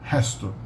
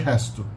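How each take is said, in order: No difference in how they are said.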